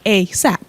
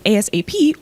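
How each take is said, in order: First: It is said as a single word. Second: Each letter is said separately.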